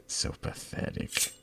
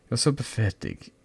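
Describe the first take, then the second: First: Unvoiced, soft contempt; whispered. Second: Said in the usual way. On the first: Villain friend sneers under her breath.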